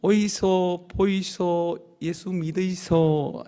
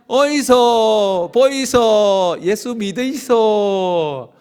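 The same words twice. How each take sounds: First: Very slow Busan-dialect call, 믿으이소 falling; Busan market call. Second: Very slow, louder Busan-dialect shout, 믿으이소 falling; loud Busan market call. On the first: Pastor leading the congregation's first try, slow Busan call. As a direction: model the call at an easy level. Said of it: "한번 해봅시다". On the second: Pastor leading the congregation's second round, loud Busan call. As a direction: belt it like a hawker across the market. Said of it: "한번 더 합시다". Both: Shown as a demonstration.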